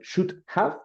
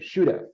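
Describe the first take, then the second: First: The two words are said separately. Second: The two words are run together. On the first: The speaker calls it wrong. "the pronunciation is not should have" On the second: The speaker calls it right. "but all together"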